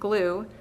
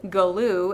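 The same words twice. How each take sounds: First: The word has no extra sound added. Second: The word has an extra sound added. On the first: The speaker calls it right. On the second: The speaker calls it wrong.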